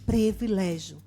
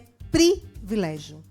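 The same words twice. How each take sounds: First: The first vowel sounds like E. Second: The first vowel sounds like I. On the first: The speaker calls it wrong. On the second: The speaker calls it right. "Com i"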